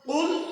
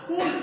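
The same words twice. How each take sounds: First: It begins with a deep q sound. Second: It begins with a plain k sound. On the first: It means you say. The speaker calls it right. "কুল মানে হচ্ছে তুমি বলো" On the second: It means you eat. The speaker calls it wrong. "কুল ছোট কাপ দিয়ে"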